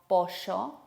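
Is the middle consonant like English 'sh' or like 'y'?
sh. The middle consonant sounds like a 'sh'. This is how Rioplatense speakers say it. "sino pollo"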